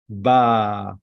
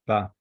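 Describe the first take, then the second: First: Ba held long as "baaah"; Ba with a sustained open "ah"; long vowel. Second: Ba said short, "bah"; Ba with a brief open "ah"; short vowel. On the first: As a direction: draw out the vowel of Ba. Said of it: "Gadol means long". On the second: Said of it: "A, the short one". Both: Shown as a demonstration.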